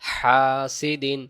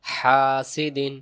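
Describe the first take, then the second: First: The first vowel is drawn out long. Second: The first vowel is drawn out long.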